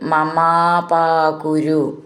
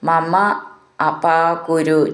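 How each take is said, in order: First: The two words are joined into one. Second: The two words are said separately.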